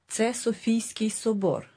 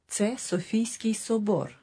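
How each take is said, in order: First: It is said with statement intonation. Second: It is said with statement intonation.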